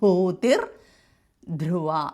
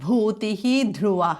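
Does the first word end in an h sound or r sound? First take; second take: r sound; h sound. First: The first word ends in an r sound. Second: The first word ends in an h sound.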